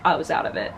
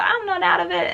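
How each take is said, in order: First: Low, sheepish admission. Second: High, insistent tipsy denial. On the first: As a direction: own up to it, dropping low. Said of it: "later on you're like". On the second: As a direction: protest you're fine, way up high. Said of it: "you're like". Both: Retold or imitated.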